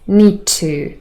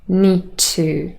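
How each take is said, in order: First: The d is dropped and only t is heard. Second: The same.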